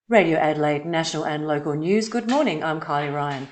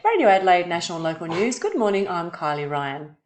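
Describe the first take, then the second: First: The voice is lower and deeper, with more depth. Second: The voice is higher and thinner, with less depth. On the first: The speaker calls it right. "the tone that will give it more authority and more um, depth" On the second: The speaker calls it wrong. "if I was to go"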